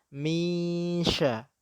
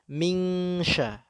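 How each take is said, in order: First: A nasal hum glides straight into the 'sh'. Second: A clear 'ng' sound comes before the 'sh'. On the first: The speaker calls it right. "Ming berbeda dengan misha" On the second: The speaker calls it wrong. "Orang Indonesia seringnya menyebut dengan mingsha"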